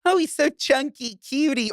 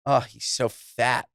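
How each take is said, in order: First: Cooing chunky. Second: Mean mock. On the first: Retold or imitated. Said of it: "If she was saying". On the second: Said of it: "if this chinless Goyish woman was saying".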